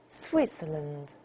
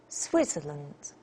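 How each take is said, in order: Both takes have the same delivery.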